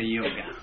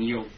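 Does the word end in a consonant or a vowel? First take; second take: vowel; consonant. First: The word ends with an added vowel sound. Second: The word ends abruptly on the hard consonant. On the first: "we tend to say yoga" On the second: "instead of saying yog"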